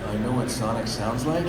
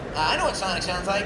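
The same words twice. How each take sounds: First: The voice is pitched much lower. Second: The voice is pitched fairly high. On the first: The speaker calls it right. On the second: The speaker calls it wrong. "a little lower"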